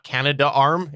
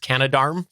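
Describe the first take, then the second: First: It is said as two separate words. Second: It is said as one blended word. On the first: The speaker calls it wrong. "It's not Canada Arm" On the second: The speaker calls it right. "It's Canadarm. It's C A N A D A R M"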